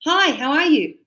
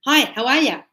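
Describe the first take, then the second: First: Said in the usual way. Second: Casual Australian "how are ya", words run together; light Australian accent on "Hi, how are ya?"; relaxed Aussie "ya" for "you"; Australian greeting. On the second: Shown as a demonstration. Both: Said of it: "But in Australia".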